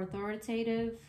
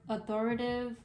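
First: Authoritative with the TAY sounded, au-THOR-i-tay-tive; full pronunciation. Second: Authoritative said without the TAY, as au-THOR-i-tive; shortened pronunciation. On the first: Tarot reader offering the other form of the word, authoritative as au-THOR-i-tay-tive. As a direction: give authoritative every syllable, including TAY. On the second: Tarot reader trying one form of the word, authoritative shortened to au-THOR-i-tive. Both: Shown as a demonstration. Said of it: "one or the other".

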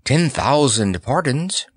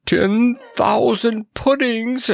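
First: Slow, higher-pitched, courteous apology; polite apology. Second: Very high, drawn-out outraged squawk; furious scream. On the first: Clown placates the angry monarch, slow and polite. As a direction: beg pardon slowly and humbly. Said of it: "polite, slightly shaky voice". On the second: Monarch throws the clown's apology back, in a high furious screech. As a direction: screech it slowly in high-pitched fury. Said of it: "screamed Mustafa furiously". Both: A narrator's reading.

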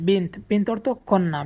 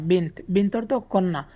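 No difference in how they are said.

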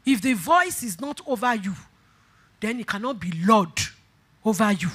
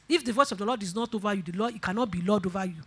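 First: Measured, spaced-out phrases; weighty, unhurried preacher's repeat; deliberate restatement. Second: Fast, softer preaching line; rapid, low-key statement; quick aside. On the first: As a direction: pause before the key words to let them land. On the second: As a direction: run through it quickly and quietly. First, quick pass at the statement. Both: Real, not acted.

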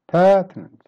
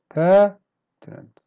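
First: "Pertinent" in one piece, loud high "per"; first-syllable stress. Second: "Pertinent" slowly, long pause after loud "per"; split syllables. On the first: Teacher pronouncing each word, "Pertinent" whole with front stress. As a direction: hit the start of "Pertinent", drop after. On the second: Teacher pronouncing each word, "Pertinent" slowly broken after "per". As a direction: punch "per", wait, finish "Pertinent". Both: Shown as a demonstration.

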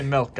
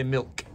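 First: "milk" said as "melk" with an open e, imitating; mock pronunciation. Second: "milk" said plainly with a short i, as "mik"; own pronunciation. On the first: Shopper mocking his friend's "melk" for "milk", imitating. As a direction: mimic the "melk" way of saying "milk". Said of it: "people who say milk". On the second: Shown as a demonstration. Shopper showing his friend how he says "milk", plain. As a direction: insist on your own way of saying "milk". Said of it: "I say milk".

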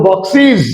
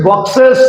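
First: বক্সিস ending in "-siz", falling; new "-iz" ending. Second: বক্সেস ending in "-ses"; old "-es" ending. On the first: Teacher showing the corrected way, বক্সিস with "-siz". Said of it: "এখন বলবো". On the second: Teacher recalling the earlier way, বক্সেস with "-ses". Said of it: "আগে বলেছি". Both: Shown as a demonstration.

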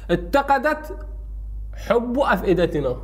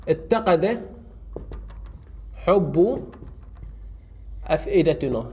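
First: Spaced out example. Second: اتقد, حب, أفئدتنا each set apart by long pauses; slow word by word. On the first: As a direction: dictate اتقدت, pause, then حب أفئدتنا. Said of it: "أحطه بجملة جديدة". (نطق متقطع بوقفة بعد اتقدت) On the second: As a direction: dictate اتقد حب أفئدتنا one word at a time. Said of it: "راح أقول". (نطق كلمة كلمة مع وقفات طويلة) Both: Shown as a demonstration.

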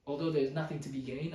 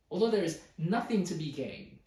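First: Said in the usual way. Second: Louder, emphatic reading in exasperation; exasperated. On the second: Retold or imitated. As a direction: voice the writer's exasperation, hitting the words harder. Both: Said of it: "Can you hear how exasperated he is?".

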